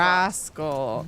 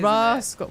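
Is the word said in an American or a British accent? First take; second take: American; British. First: It is said in an American accent. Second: It is said in a British accent. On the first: The speaker calls it wrong. "Americans would say" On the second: The speaker calls it right. "rascal's quite lovely"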